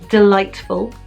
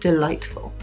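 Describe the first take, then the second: First: It is said in a plain, ordinary way. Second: It is said in a sexy, sinister way.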